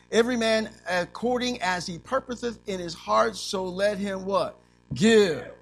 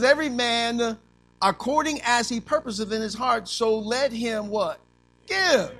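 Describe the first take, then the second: First: Preacher quoting a verse, landing on Give; scripture read, Give stressed. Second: The verse louder and higher, give shouted high; preacher repeating the verse with a higher, louder give; emphatic scripture. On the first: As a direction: quote the verse and hit Give hard. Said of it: "It doesn't say". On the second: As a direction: drive the verse home and belt out give. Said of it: "It says". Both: Shown as a demonstration.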